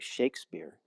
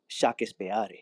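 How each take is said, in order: First: The name has an English pronunciation. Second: The name has a Spanish pronunciation. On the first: "in Spain they don't say Shakespeare" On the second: "they say Shakespeare"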